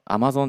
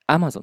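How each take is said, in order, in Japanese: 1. 最初は低く始まります。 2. 最初は高く始まります。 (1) "低いところから入りますけど" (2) "Amazon ですね。"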